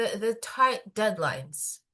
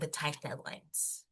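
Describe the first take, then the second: First: The phrase is spoken with a stutter. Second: The phrase is spoken smoothly without a stutter. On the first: The speaker calls it wrong. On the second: The speaker calls it right.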